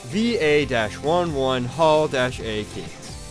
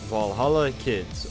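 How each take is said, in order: First: The name is spelled out as letters and numbers. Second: The name is said as one word, Valhalla.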